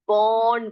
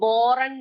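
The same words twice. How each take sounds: First: The r sound is silent in the word. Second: The r sound is pronounced in the word. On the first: The speaker calls it right. "इसको बॉर्न करके पढ़ना, क्योंकि आर यहाँ पर silent है" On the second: The speaker calls it wrong. "बॉर्न नहीं पढ़ना कोई भी"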